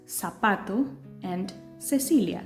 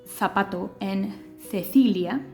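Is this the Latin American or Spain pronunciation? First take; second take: Latin American; Spain. First: It is said with a Latin American pronunciation. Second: It is said with a Spain pronunciation.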